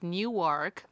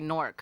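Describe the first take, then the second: First: The word is said with two syllables. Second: The word is squeezed into one syllable. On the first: It is the name as outsiders say it. "It's Newark" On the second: It is the name as locals say it. "if you're from Newark, you're you have to say Nork"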